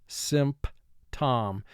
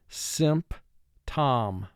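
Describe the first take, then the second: First: It is exaggerated so every spelled sound is heard. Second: It is exaggerated so every spelled sound is heard.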